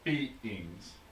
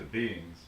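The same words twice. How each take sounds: First: The word is drawn out with extra emphasis. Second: The word is said plainly without extra emphasis. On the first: "you keep saying beings" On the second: "as opposed to beings"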